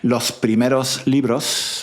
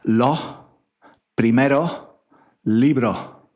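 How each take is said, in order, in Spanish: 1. Las S finales se pronuncian claramente. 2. Las S finales se omiten, las vocales se abren. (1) "en lugar de decir los primeros libros, ¿vale? Estoy, estoy exagerando" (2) "no pronunciamos la S, pero abrimos la, la vocal"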